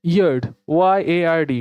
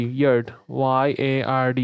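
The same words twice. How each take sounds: First: Said in the usual way. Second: ইয়ার্ড said slowly and lower, then spelled out letter by letter; careful, slower teacher repeat of ইয়ার্ড. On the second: Shown as a demonstration. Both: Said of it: "American ইংলিশে ইয়ার্ড".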